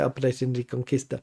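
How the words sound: Reconquista is said with Spanish pronunciation. "I always say it in a Spanish way"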